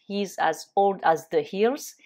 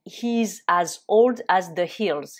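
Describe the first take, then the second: First: Said in the usual way. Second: Slow and a bit louder, every word set apart; slow model phrase. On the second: Shown as a demonstration. Teacher modelling the idiom slowly and louder for students. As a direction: lay it out slowly for learners to copy. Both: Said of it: "on peut dire".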